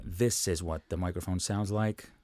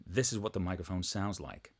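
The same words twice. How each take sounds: First: Speaking from a short step back from the microphone; slightly distant, softer pickup; a bit off mic. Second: Well back from the microphone, much softer; distant, roomy, faint voice; far off mic. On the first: Demoing the mic for viewers, a little off mic. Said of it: "if I go further away from the microphone". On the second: Demoing the mic for viewers from further away. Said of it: "And even further away". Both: Shown as a demonstration.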